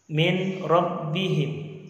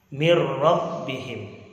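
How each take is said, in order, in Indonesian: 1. Bunyi n terdengar sebelum rabbihim. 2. Bunyi n melebur ke r setelahnya. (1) "Contohnya min rabbihim" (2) "Dibaca mir rabbihim"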